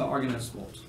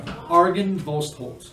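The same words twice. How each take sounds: First: "Argonestvold" with "est" in the middle; mispronounced name. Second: "Argonvolstholt" with "volst" in the middle; corrected pronunciation. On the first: Game master welcoming players, name misread as "Argonestvold". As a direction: say "Argonestvold", not "volst" in the middle. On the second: Game master correcting a misread, careful "Argonvolstholt". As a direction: say "Argonvolstholt" carefully, ending "holt". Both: Real, not acted. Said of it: "Sorry, Argonvolstholt".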